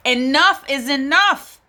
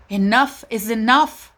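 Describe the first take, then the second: First: Louder and higher, rising at the end; exasperated outcry. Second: Said in the usual way. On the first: Real, not acted. A mother fed up with police violence declares it loudly. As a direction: put your foot down in exasperation. Outraged about police killings.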